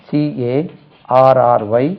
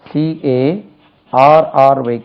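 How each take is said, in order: The two takes are said the same way.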